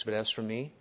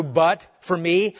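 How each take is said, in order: First: Soft, calm and unhurried, spoken quietly; calmly. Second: "but" hit hard and "me" drawn out slowly with a rise; emphatic but. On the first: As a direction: let "But as for me" rest in quiet calm, no push. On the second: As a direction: lean on "but", then stretch "me" upward. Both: Shown as a demonstration.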